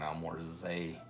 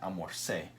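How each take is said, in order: First: The last syllable starts with a buzzing z sound. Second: The last syllable starts with a hissing s sound. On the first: The speaker calls it wrong. "it'd be more like a Z sound" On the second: The speaker calls it right. "We want it to be the al mor se"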